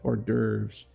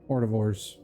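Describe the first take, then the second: First: The word is said with no 't' sound inside. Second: The word is said with a 't' sound inside. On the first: The speaker calls it right. "Hors d'oeuvres, that's it" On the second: The speaker calls it wrong. "I keep saying it that way, and I know it's wrong"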